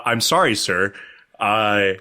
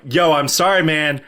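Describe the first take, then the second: First: Careful, deferential sorry; meekly polite retold apology; uncool, polite apology. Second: Casual, breezy sorry; laid-back retold apology; cool apology. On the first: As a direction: apologize formally to someone important. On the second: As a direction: toss off an apology like a cool guy. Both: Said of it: "I wasn't that cool".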